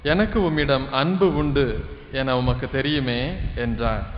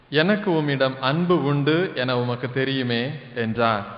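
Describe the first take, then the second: No difference in how they are said.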